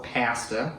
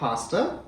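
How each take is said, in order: First: Pasta is said the Canadian way. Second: Pasta is said in a non-Canadian way. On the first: This is the speaker's usual pronunciation. "I normally say pasta. ... that's the Canadian way" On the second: This is not the speaker's usual pronunciation. "I don't know why I've been saying pasta"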